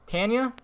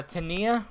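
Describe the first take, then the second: First: "Tanya" said TAN-yə, rising higher; a rising, questioning "Tanya" with a short a; unsure name. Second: "Tania" said tə-NEE-ə, questioning; hesitant "Tania" with an ee sound; unsure name. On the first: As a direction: try "Tanya" as TAN-yə, asking. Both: Real, not acted. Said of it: "Is it Tanya or Tania?".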